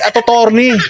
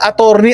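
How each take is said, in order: First: The word is said with a stuttered repeated syllable. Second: The word is said smoothly in one go. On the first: The speaker calls it wrong. "hindi atotorni" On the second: The speaker calls it right. "attorney ka din"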